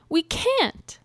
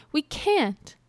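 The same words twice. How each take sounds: First: Much higher chick voice, stress on "can't"; squeaky "We can't" with "can't" punched high. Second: Chick voice, stress on "we", falling; "we" pushed hard, then "can't" drops. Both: A narrator's reading. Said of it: "chirped the little chickens".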